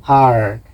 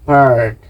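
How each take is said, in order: The two takes are said the same way.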